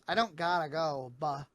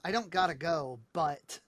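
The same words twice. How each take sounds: First: The consonants are dropped or swallowed. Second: The consonants are pronounced clearly. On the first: "the way she goes" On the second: "the line was"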